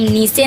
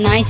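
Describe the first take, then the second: First: The vowel sounds like 'ee'. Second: The vowel sounds like 'eye'. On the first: The speaker calls it wrong. "इसे हम नीचे नहीं पढ़ेंगे" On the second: The speaker calls it right. "आई का उच्चारण आई होगा"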